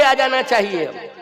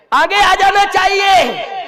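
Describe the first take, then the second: First: Said in the usual way. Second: High, loud, drawn-out preacher's call; slow ringing shout, urging people forward; forceful exhortation. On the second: Real, not acted. Preacher calling the rich to step forward, forceful exhortation.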